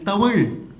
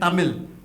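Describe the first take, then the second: First: It uses the native local pronunciation. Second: It uses the common English-style pronunciation. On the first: The speaker calls it right. "it's Tamil" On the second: The speaker calls it wrong. "one would say Tamil, but it's not Tamil"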